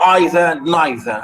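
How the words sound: It is said with the British pronunciation. "The British, they say either and neither"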